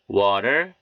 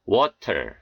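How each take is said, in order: First: 'water' with T as an R-like tap; American flapped T. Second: 'water' with a clear hard T; unflapped T. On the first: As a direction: flap the T in 'water'. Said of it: "연음 현상이 들어가서 이렇게". ('water'의 T를 ㄹ처럼) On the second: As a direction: release the T in 'water' fully. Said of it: "이렇게 발음해 틀린 것은 아니". ('water'의 T를 또렷한 ㅌ로) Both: Shown as a demonstration.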